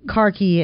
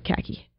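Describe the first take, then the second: First: It is said with a British pronunciation. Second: It is said with an American pronunciation.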